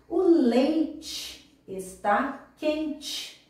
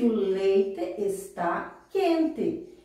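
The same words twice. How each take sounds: First: It is spoken in a northern Paraná accent. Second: It is spoken in a Curitiba accent. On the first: "aqui no norte do Paraná, nós, dizemos" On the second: "Vamos pensar lá em Curitiba. Alguém vai dizer que"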